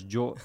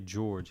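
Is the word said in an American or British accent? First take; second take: British; American. First: It is said in an imitated British accent. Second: It is said in a plain American accent. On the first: "in some, like, British accent or whatever" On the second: "he doesn't say George"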